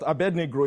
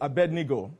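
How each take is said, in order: First: An r sound follows the g. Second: No r sound follows the g. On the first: The speaker calls it wrong. "It's not Abednegro" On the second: The speaker calls it right. "it's Abednego"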